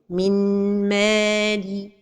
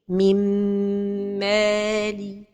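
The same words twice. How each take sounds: First: The n is pronounced clearly. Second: The n merges with a held nasal hum. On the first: The speaker calls it wrong. "une autre erreur, c'est de prononcer an-noun" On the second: The speaker calls it right. "la prononciation correcte est"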